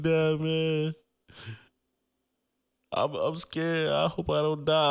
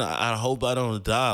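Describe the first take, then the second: First: High, drawn-out mock crying voice; whiny, high retold sob; imitating bawling. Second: Said in the usual way. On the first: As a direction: re-enact a tearful plea to dad. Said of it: "I just started bawling all over". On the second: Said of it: "Like, I'm saying".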